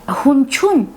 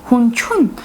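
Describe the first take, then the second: Both takes have the same delivery.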